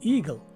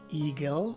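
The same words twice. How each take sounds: First: The last syllable has a short, weak vowel. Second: The last syllable has a stressed E vowel. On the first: The speaker calls it right. "with a short or swas sounding letter E" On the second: The speaker calls it wrong. "a seemingly emphasized letter E"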